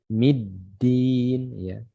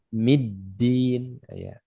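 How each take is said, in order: Both takes have the same delivery.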